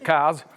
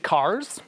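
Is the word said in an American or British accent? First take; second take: British; American. First: It is said in a British accent. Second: It is said in an American accent. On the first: "if I say it in British" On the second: "I had to say that in an American accent"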